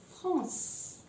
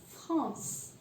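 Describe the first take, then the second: Both takes have the same delivery.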